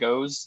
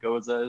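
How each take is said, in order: First: The name is said as one syllable. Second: The name is said as two syllables. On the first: This is how shop staff usually say it. "Every time I go to a shop, they say goes" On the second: This is the supposedly original way to say it. "goza is supposed to be their way to say it"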